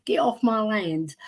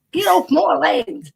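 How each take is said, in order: First: Said in the usual way. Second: Higher, slow grumpy farmer voice. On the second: Pretend. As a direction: shoo them off your land, slowly. Mock farmer chasing off trespassers.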